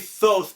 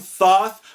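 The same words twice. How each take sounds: First: The vowel sounds like oath. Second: The vowel does not sound like oath. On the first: "I like the sound of it because it has oath in it" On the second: "I think it's probably the way it's written"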